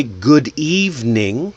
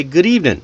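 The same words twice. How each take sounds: First: "good evening" slow, each word full; unlinked. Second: "Good evening" run into one quick word, "goodeevning"; pushed together. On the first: Teacher shows form before linking, slow and separate. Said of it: "let it flow". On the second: Teacher shows learners connecting words, linked. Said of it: "Push it together". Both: Shown as a demonstration.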